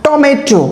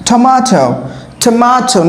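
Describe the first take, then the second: First: Tomato with a hard ট; wrong Bengali t. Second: Tomato with a breathy th at the start; aspirated t. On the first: Teacher showing the wrong tomato. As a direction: say tomato with a flat ট, no air. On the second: Teacher modelling tomato for students. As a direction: air on the t of tomato. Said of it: "তারপর এটা কি হবে?". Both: Shown as a demonstration.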